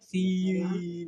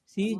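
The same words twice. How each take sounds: First: The vowel is drawn out long. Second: The vowel is short and clipped. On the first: The speaker calls it wrong. "सी लंबा घींचा नहीं जा रहा है, सी नहीं हो" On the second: The speaker calls it right. "सी सी जो है वो स्मॉल है"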